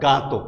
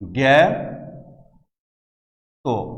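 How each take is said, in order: First: The first vowel is an open a sound. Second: The first vowel is a front ae sound. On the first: The speaker calls it wrong. "সরল বাংলায় যদি পড়তে যাও" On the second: The speaker calls it right. "কিন্তু এর উচ্চারণটা হবে"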